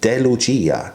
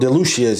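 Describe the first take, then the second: First: The name is said with an Italian pronunciation. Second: The name is said with an anglicized pronunciation. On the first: This is the name's real pronunciation. "the Italian pronunciation is" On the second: This is how most people say it. "as most people call it"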